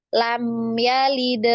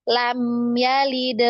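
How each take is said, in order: No difference in how they are said.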